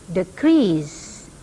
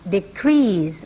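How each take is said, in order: First: The stress is on the second syllable. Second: The same.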